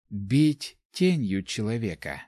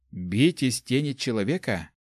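First: Slow, separated words stressing "тенью"; correcting. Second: Said in the usual way. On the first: A narrator's reading. Нами corrects Ари's phrase, slow emphasis on "тенью". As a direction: set "тенью" apart slowly as the correction. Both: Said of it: "поправила Нами".

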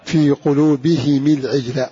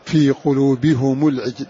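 First: قلوبهم read with the ha and the mim in kasra, qulubihimi; Abu Amr reading. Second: قلوبهم read with the ha and the mim in damma, qulubihumu; Hamza and Kisai reading. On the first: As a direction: say قلوبهم العجل as qulubihim il-ʕijl, both vowels i. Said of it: "فنقول". (قلوبهم بكسر الهاء والميم وصلا) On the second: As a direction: say قلوبهم العجل as qulubihumu l-ʕijl, both vowels u. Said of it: "تضم الهاء والميم". (قلوبهم بضم الهاء والميم وصلا) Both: Shown as a demonstration.

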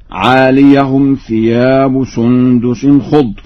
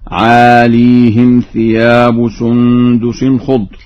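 First: Said in the usual way. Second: عاليهم as "aaleehim", long ee then "him"; slow, loud recitation with "aaleehim" for عاليهم; still ya, kasra on ha. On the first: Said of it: "لفظ عاليهم بإسكان الياء". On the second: Shown as a demonstration. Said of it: "بإسكان الياء". (عاليهم بإسكان الياء وكسر الهاء)

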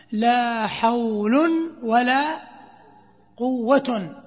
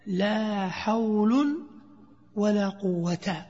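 First: "لا حول ولا قوة" drawn out slowly, each ending spelled clearly; a teacher demonstrating the first permitted reading; first grammatical reading. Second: A teacher contrasting it with the other reading; second grammatical reading. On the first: Teacher shows students the first reading, slow and clear. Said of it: "لك أن تقول". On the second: Teacher offers the alternative reading, slow and clear. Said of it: "ولك أن تقول". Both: Shown as a demonstration.

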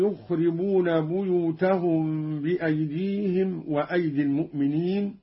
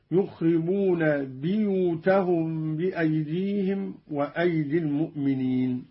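First: Said in the usual way. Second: بيوتهم recited "biyutahum", with i after the b; kasra in buyut. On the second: Shown as a demonstration. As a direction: open بيوتهم on "bi" instead of "bu". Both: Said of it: "بكسر الياء من لفظ بيوت".

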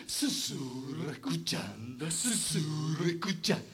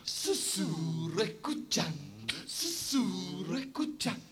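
No difference in how they are said.

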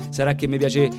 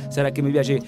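No difference in how they are said.

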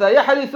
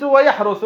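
First: يحرث with an i in the middle; kasra on the middle. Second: ويحرث with a u in the middle; damma on the middle. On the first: Teacher giving another two-way verb, يحرث with an i. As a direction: say يحرث as yahrithu, with i after the r. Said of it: "أن يكسر". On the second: Teacher giving another two-way verb, ويحرث with a u. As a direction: say ويحرث as wa-yahruthu, with u after the r. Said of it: "أن يضم". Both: Shown as a demonstration.

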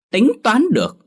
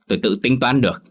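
First: "Tính toán được?" thrown back much higher and louder; wife mimicking her husband scornfully; mocking echo. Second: Said in the usual way. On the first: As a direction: sneer his own words back at him. Wife mocking his words.

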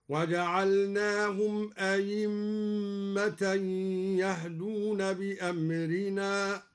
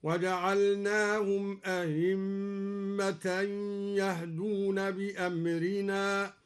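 First: أئمة with second hamza read as pure ya, aymma, slow chant. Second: أئمة with second hamza softened, slow chant; eased hamza. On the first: Reciter demonstrating ya for hamza, slow chanted أئمة. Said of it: "أو إبدالها ياء خالصة". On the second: Reciter demonstrating eased hamza, slow chanted أئمة. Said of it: "بتسهيل الهمزة الثانية". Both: Shown as a demonstration.

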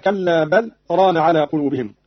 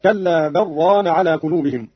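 First: Said in the usual way. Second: بل ران joined as "barraan", no pause; lam merged into ra. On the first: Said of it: "بعدم السكت على اللام". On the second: Shown as a demonstration. Teacher showing Qalun's reading, بل ران merged without a pause. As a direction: recite بل ران with the ل swallowed into a doubled ر. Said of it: "بإدغام اللام في الراء هكذا".

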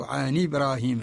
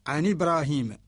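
First: عن إبراهيم run together as "عنِ براهيم", hamza dropped and its kasra moved onto the nun; Warsh transfer of hamza. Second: عن إبراهيم with the hamza of إبراهيم kept as a clear glottal stop after عن; Qalun reading with hamza. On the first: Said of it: "ورش ينقل حركة الهمزة وهي الكسرة للساكن قبلها". (بقراءة ورش: نقل كسرة الهمزة إلى نون عن) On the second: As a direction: say عن إبراهيم with the nun silent, then a full hamza. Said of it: "الأصل عن إبراهيم وهو رواية قالون". (بقراءة قالون: تحقيق الهمزة في عن إبراهيم) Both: Shown as a demonstration.

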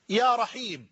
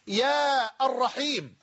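First: يا رحيم as smooth "ya Raheem"; vocative without article. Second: يا الرحيم slowly as "yaa ar-Raheem"; wrong vocative with article. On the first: Teacher shows the correct form, يا رحيم without article. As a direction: run يا directly into رحيم. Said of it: "بل تقول". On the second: Teacher shows an incorrect form, slow يا الرحيم with article. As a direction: stretch يا, then sound the article in الرحيم. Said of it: "لا يليق لغة". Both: Shown as a demonstration.

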